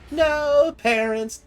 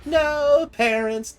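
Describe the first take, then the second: First: It is said in a put-on Moogle voice. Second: The same.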